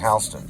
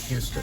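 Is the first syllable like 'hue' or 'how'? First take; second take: how; hue. First: It is said the New York way, like 'how'. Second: It is said the usual way, like 'hue'.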